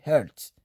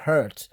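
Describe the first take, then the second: First: "hurt" with the H left silent. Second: "hurt" with a sounded H, the wrong take; H pronounced in hurt. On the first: Teacher showing learners the form to say, silent H in "hurt". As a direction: say "hurt" starting straight on the vowel, no H. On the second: Teacher showing learners what not to say, H pronounced in "hurt". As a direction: say "hurt" starting on an audible H. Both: Shown as a demonstration. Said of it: "ici, on lit pas le H".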